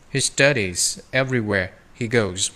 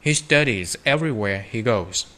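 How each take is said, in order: Both takes have the same delivery.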